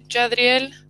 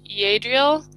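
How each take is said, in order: First: The name is pronounced the Spanish way. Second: The name is pronounced the English way. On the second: "I think you pronounce it in English, you pronounce it Yadriel"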